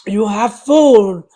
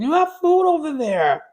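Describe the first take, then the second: First: Slow, loud, stern: You have food; stern scolding. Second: Raised, firm scolding of a dog. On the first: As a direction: drag it out sternly at the dog. Scolding dog again, slower, louder. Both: Real, not acted.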